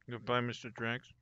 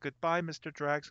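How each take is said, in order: First: It is mumbled quietly and indistinctly. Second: It is said loudly and clearly enunciated. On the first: The speaker is lost in thought, talking to himself. The speaker calls it wrong. "he would just sort of mumble to himself" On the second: The speaker is politely addressing the host. The speaker calls it right. "They would all very sort of loudly announce that"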